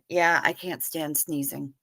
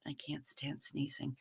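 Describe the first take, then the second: First: Said in the usual way. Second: A hushed echo to herself; whispered repeat. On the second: Real, not acted. Streamer repeats her complaint about sneezing to herself, whispered. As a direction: whisper the line again under her breath.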